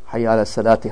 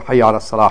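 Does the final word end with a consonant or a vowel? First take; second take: vowel; consonant. First: The last word ends with an added vowel. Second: The last word ends without a vowel. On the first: The speaker calls it wrong. "Don't say like this" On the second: The speaker calls it right. "So you say"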